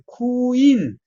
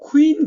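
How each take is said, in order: First: The word is split into separate sounds. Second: The word is said as one blended syllable. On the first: "쿠인 이런다는 거예요" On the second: "우리는 그냥 여왕 할 때 퀸 그래 그냥 퀸 그러는데"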